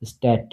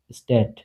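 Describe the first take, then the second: First: "স্ট্যাট" ending in a crisp t; German dt demo. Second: "স্ট্যাট" again with a crisp t ending, falling; German dt repeat. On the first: Teacher models the t ending in "স্ট্যাট" for students. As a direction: end "স্ট্যাট" on a sharp t. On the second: Teacher repeats "স্ট্যাট" for students to copy. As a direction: repeat "স্ট্যাট" with the sharp final t. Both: Shown as a demonstration. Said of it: "ট এর মতো উচ্চারণ হবে".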